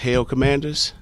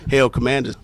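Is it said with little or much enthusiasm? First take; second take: little; much. First: It is said with little enthusiasm. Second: It is said with much enthusiasm.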